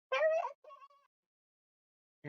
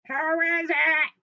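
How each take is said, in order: First: Put-on very high, drawn-out old granny voice; Grandma. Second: Loud, high, stretched fake granny; wolf posing as Grandma. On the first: Grandma answers a knock, high and slow. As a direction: call out slowly in a high falsetto. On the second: Wolf in Grandma's bed answers, loud and high. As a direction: belt it out in a bad granny voice.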